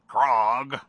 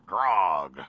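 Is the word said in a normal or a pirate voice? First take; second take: normal; pirate. First: The word is said in a plain voice. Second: The word is said in a growly pirate voice.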